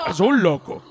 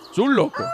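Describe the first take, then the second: First: Said in the usual way. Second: Lifts "loco" up high, playful; high rising repeat. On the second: Shown as a demonstration. Repeating the clip's line, "loco" up high. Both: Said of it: "buen tono".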